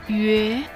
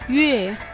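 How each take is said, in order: First: The pitch dips low then rises. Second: The pitch falls sharply from high.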